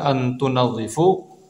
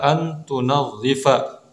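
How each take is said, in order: First: The last word ends with an 'u' vowel. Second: The last word ends with an 'a' vowel. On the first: The speaker calls it wrong. "maka ini menyalahi kaidah yang sudah kita pelajari" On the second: The speaker calls it right. "Namun yang benar adalah an tunadhifa"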